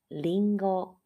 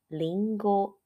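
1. 音高在整个词里保持平稳。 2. 音高在整个词里保持平稳。

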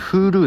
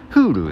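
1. ピッチは下がらず、平らなままです。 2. 最初の音節のあとでピッチが下がります。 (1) "自分の中では完全にHulu なんですよ" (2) "公式での正しい読み方は九州に近いっていう感じで"

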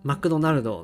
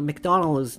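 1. 日本語風の発音で言われています。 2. 英語風の発音で言われています。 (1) "日本語だとマクドナルド" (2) "英語だと発音するとメクドナルド"

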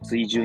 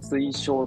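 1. tsuijuu と読む。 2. tsuishou と読む。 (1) "普通に読んじゃうと追従になっちゃう" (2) "本来は推奨と読む読み方だった"

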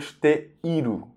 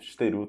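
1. O som i depois de te é pronunciado. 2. O som i depois de te é omitido. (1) "O correto mesmo seria esteiru" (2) "muita gente nem fala não pronuncia esse i. Então, esteru tá perfeito"

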